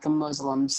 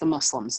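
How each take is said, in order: First: The name uses buzzing z sounds. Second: The name uses the usual s sounds. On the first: The speaker calls it wrong. "not the Muslims" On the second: The speaker calls it right. "But it's pronounced the Muslims"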